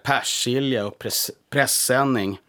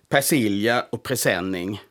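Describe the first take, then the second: First: The words are said the Stockholm regional way. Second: The words are said the Blekinge regional way. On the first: This is how it must be said in the capital. The speaker calls it right. "Där måste man säga" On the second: This is how it is said in the south where the speaker grew up. The speaker calls it wrong. "Jag är född i Blekinge och som barn sa jag"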